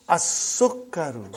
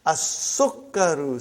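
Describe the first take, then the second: First: "As-sukkaru" again slowly, stressed doubled k; slow Arabic model. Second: As-sukkaru, sun letter assimilated, doubled k drawn out; slow Arabic model. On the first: Teacher repeating "As-sukkaru" for students to copy. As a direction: drill "As-sukkaru" with lam swallowed. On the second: Teacher modelling "As-sukkaru" slowly for the class. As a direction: say "As-sukkaru" slowly, lam silent. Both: Shown as a demonstration.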